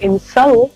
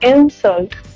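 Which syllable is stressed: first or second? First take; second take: second; first. First: The stress is on the second syllable. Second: The stress is on the first syllable. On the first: It is a verb meaning to insult. "ये बन जाता है एक word, एक काम" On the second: It is a noun meaning an insult. "आपका जो stress होगा वो पहले सिलेबल पर होगा"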